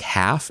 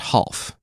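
First: It is said like the English word half. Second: It is said like Alf in Alfheim. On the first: "It's spelled like half in English" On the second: "I feel like it should be pronounced Half, because Alf, like an Alfheim"

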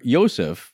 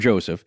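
First: The name is said with a non-American pronunciation. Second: The name is said with an American pronunciation.

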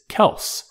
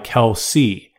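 First: The name ends in an s sound. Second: The name ends in a vowel sound. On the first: This is the name the rest of the family uses. "the standard pronunciation is Kelce, K-E-L-S-S" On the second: This is the name his own family uses. "our side of the family has always gone by Kelce"

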